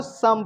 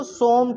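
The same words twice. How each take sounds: First: "सम" with a short uh vowel; correct short vowel. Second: "सोम" with a long oh vowel; misreading with O. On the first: Teacher correcting the class's reading, "सम" with short uh. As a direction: say "सम" as in English "sum". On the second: Teacher quoting a common misreading, "सोम" with long oh. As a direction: stretch the rounded oh in "सोम". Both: Shown as a demonstration. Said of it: "इसको सम पढ़ेंगे".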